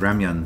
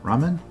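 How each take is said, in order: First: The word ends with a 'myun' sound. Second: The word ends with a plain 'men' sound. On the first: The speaker calls it wrong. "I've been pronouncing that as ramyun for so long" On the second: The speaker calls it right.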